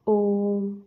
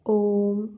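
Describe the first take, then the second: First: ओम with the ओ held long; drawn-out Om. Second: Said in the usual way. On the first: Shown as a demonstration. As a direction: stretch the ओ in ओम before the म. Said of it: "इस तरीके से". (ओम में ओ को खींचकर लंबा बोलें) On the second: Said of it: "जैसे हम लिखते हैं राम".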